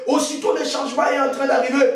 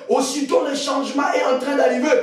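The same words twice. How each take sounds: The two takes are said the same way.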